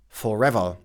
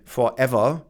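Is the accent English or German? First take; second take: English; German. First: It is said with an English accent. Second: It is said with a German accent. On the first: The speaker calls it right. "instead of forever" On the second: The speaker calls it wrong. "or they say forever"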